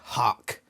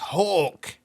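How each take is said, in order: First: The word is said in an American accent. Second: The word is said in a non-American accent. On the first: The speaker calls it wrong. "I like the way that Americans say hawk. They say hawk" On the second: The speaker calls it right. "It's hawk"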